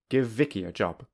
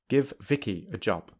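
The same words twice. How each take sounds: First: The two v sounds merge into one. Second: Both v sounds are said separately. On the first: "secondly with linking" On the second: "Firstly without linking"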